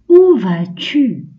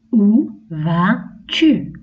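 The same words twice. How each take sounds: First: Louder, higher, slow "où vas-tu" with falling "où"; question example. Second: Very slow "Où vas-tu", stretched out; very slow question. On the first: Teacher models a question for children, emphatic and slow. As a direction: ask it slowly, hitting "où". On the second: Teacher repeats the question very slowly for children. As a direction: drag the question out gently. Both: Shown as a demonstration. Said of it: "Par exemple".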